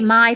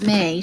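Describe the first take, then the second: First: The name rhymes with eye. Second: The name rhymes with day. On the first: The speaker calls it wrong. "I always want to say my for some reason, and I know that's not right" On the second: The speaker calls it right. "It's May. She pronounces it May"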